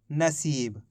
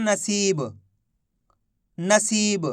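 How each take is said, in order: First: नसीब lower and softer, falling on सीब; read-back. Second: नसीब with a long सी and released ब; pronunciation demo. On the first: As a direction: read back नसीब as a finished word, low and soft. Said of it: "तो मिलके बन गया अपने". (नसीब, धीमे और नीचे सुर में) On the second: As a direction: sound out नसीब clearly for dictation. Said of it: "इसका उच्चारण हो रहा है". (नसीब का साफ़ उच्चारण, सी खींचकर) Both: Shown as a demonstration.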